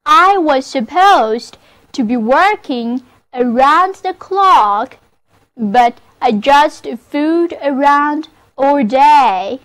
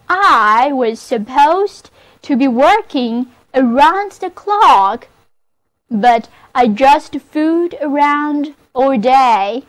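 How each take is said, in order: First: Model sentence reading. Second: Repeated model reading. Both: Shown as a demonstration. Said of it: "那么这个句子就是".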